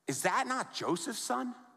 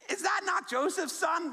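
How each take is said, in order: First: It sounds scornful and dismissive. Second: It sounds proud and amazed.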